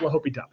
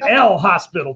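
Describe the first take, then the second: First: It is said the French way, without the s. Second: It is said like the English word hospital. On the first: The speaker calls it right. "It is French if you don't know" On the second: The speaker calls it wrong. "it is not hospital. If you really want to sound dumb"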